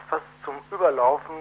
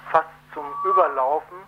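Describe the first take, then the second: No difference in how they are said.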